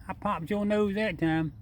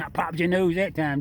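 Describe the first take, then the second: First: High, slow coo to the animal; cooing pet talk. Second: Chuckling through the words; laughing. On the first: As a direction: coo it sweetly to the raccoon. Repeats it to the raccoon. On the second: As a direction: laugh it out, amused at the bump. Teasing the raccoon after bumping it. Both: Real, not acted.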